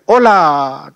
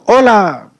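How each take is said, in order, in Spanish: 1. La palabra se dice una vez y se queda con una colita. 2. La palabra se repite en ecos separados y distintos. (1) "Una reverberación va a ser hola, como que tuviera una colita" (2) "el eco, decimos hola"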